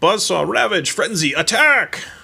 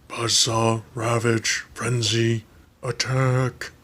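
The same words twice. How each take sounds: First: It is said in his normal voice. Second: It is said imitating Soundwave's robotic voice.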